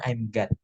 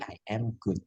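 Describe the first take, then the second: First: "God" with a short open vowel, the mistake for good; wrong pronunciation. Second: "good" with a short oo, softer; correct pronunciation. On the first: Teacher showing learners what not to say, wrong "God". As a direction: say "God" where good is meant. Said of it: "Jangan bilang". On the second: Teacher giving learners the correction, soft, clear "good". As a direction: say "good" softly with its short oo, not God. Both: Shown as a demonstration.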